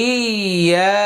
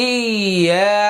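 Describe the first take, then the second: No difference in how they are said.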